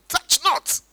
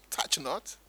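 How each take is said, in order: First: High, emphatic mock decree; sanctimonious put-on commandment; mock super-spiritual. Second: Said in the usual way. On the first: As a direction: proclaim it like the over-pious. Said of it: "feel very spiritual saying". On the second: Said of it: "Did God say".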